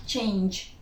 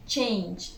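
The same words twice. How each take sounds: The two takes are said the same way.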